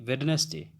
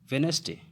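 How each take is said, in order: First: The middle 'd' is clearly sounded, three syllables. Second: The middle 'd' is silent, two syllables. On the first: The speaker calls it wrong. "ना कि वेडनेसडे" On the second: The speaker calls it right. "ये वेनसडे"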